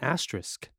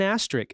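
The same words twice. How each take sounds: First: The word ends with an sk sound. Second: The word ends with a plain k sound. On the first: The speaker calls it right. "Please pronounce the S" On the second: The speaker calls it wrong. "It's not an asterisk"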